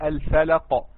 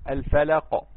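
No difference in how they are said.

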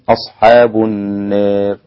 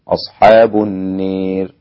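First: The long vowel leans slightly toward e. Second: The long vowel is pronounced close to e. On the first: "فبالتقليل ستكون" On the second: "بالإمالة"

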